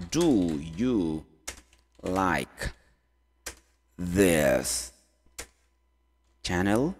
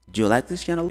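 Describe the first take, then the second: First: Very slow, low, long gaps between words. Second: Said in the usual way. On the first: Shown as a demonstration. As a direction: dictate the question one word at a time. Teacher builds question word by word. (palavra por palavra, lento e grave)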